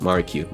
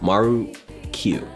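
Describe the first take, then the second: First: The name is said at a fast pace. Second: The name is said at a slower pace. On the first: The speaker calls it right. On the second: The speaker calls it wrong.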